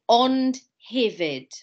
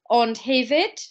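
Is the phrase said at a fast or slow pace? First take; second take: slow; fast. First: The phrase is said slowly and carefully. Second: The phrase is said quickly at natural speed.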